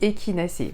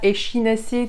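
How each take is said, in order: First: The 'ch' is said like 'k'. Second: The 'ch' is said like 'sh'. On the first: The speaker calls it right. "on dit échinacé" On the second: The speaker calls it wrong. "on ne dit pas échinacé"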